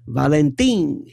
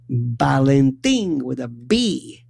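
First: Said in the usual way. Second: Valentin said with a B, Balentin, slow; Italian family's Balentin with a B. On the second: Retold or imitated. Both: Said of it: "or as they called him".

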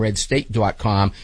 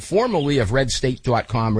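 First: "Red State dot com" repeated slowly, each word spaced out; deliberate slowed restatement of the website name; slow emphatic repeat. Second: Said in the usual way. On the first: Shown as a demonstration.

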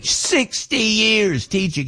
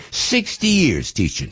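First: Sixty years teaching much higher and slow, in awe; amazed emphasis. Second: Said in the usual way. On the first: Shown as a demonstration. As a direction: marvel at it, drawn out and high.

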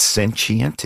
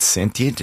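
First: "sentient" said slowly as SEN-chent; corrected pronunciation. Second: "sentient" said with a clear t, SEN-tee-ent; mispronunciation. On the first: Guest trying out the right way to say it, careful pronunciation. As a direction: say "sentient" with a ch sound in the middle. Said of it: "Is that the accurate pronunciation?". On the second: Guest checking a word he said wrong, mispronounced. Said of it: "I think I've s-, pronounced that word wrong". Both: Shown as a demonstration.

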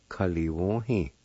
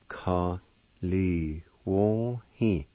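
First: Said in the usual way. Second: Ka li wo hi drawn out very slowly; slow syllables. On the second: Shown as a demonstration. Teacher stretching out the word for learners, slowly. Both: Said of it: "is pronounced like this".

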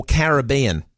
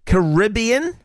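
First: "Caribbean" said slowly as ka-ra-BEE-an; second option, "Caribbean" with bean hit harder; stress on BEAN. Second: "Caribbean" said slowly as ka-RIB-ee-an; first option, "Caribbean" with rib hit hard; stress on RIB. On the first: Host polling listeners on pronunciation, "Caribbean" stressed on BEAN. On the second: Host polling listeners on pronunciation, "Caribbean" stressed on RIB. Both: Shown as a demonstration. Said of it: "What are you hitting harder?".

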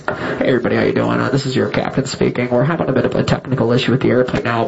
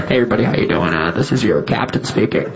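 First: Low, easygoing pilot announcement; captain voice. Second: Low, laid-back pilot announcement over the intercom; airline captain voice. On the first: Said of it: "she wanted to hear something like this". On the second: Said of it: "the captain came on and he was like". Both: Retold or imitated. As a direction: play the calm captain on the PA.

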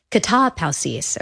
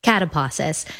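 First: Katapausis said kah-tah-POW-sis, open ah vowels and a clear ee in the last syllable; Greek pronunciation. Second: Catapausis said CAT-uh-paw-sis, English a and aw vowels; English reading. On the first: Teaching listeners the Greek word katapausis, carefully. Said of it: "or we would probably say it if we just read it". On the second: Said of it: "we would probably say it if we just read it". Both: Shown as a demonstration.

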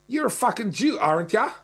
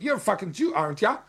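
First: Broad Australian bogan jeer, pitched up; bogan accent. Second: Mock Australian bogan taunt, pitched up; bogan accent. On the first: Retold or imitated. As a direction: sneer it like an Aussie bogan yelling from a car. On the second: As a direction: imitate a bogan jeering from his car. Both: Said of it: "this kind of bogan accent".

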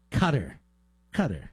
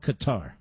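First: "Qatar" said as KUH-ter, stress on the first syllable; mock "cutter" pronunciation. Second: "Qatar" said as kuh-TAR, stress on the last syllable; corrected pronunciation. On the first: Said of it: "No, excuse me. It's called Qatar". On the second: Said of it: "No, excuse me". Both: Shown as a demonstration.

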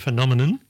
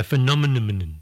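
First: Phenomenon with an n ending; correct pronunciation. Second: Phenomenon with a stray m near the end; common mispronunciation. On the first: Host giving the right word, phenomenon ending in n. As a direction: say phenomenon as fe-NOM-en-on. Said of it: "instead of phenomenon". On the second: Host showing the mistake, phenomenon with extra m. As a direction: muddle phenomenon as fe-NOM-en-um-nun. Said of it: "they put an M on the end". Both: Shown as a demonstration.

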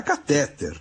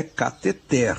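First: Catéter stressed on TÉ, the second syllable; the everyday form catéter, ca-TÉ-ter; stress on middle syllable. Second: Cateter said slowly, stressed on final TER; the learned form cateter, ca-te-TER; stress on final syllable. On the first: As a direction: hit the middle of catéter, leaving the end weak. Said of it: "com acento agudo no E". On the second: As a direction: land the beat of cateter on its last syllable. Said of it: "qual é a forma culta?". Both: Shown as a demonstration.

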